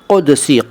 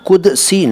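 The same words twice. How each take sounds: First: It begins with a deep throaty q sound. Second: It begins with a plain front k sound. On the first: The speaker calls it right. "क क काफ है" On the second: The speaker calls it wrong. "कुदसी नहीं"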